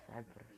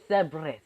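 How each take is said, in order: First: A deep three-headed dog murmuring its name; low hushed growl. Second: Loud call. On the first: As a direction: lower and much softer, almost breathed. Transformation call, new form. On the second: Transformation call. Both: Acted.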